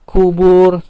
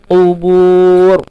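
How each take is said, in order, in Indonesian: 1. Kata ini dimulai dengan bunyi k biasa di depan. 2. Kata ini dimulai dengan bunyi q dalam di belakang. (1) "bukan pakai kap, kubur, salah" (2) "pakai ko ya"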